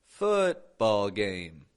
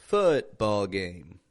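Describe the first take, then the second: The two takes are said the same way.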